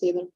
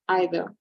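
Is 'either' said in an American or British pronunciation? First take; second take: American; British. First: The word is said with an American pronunciation. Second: The word is said with a British pronunciation. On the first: "in American English is either" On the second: "the receptionist has a British accent, so that's the reason why he said either"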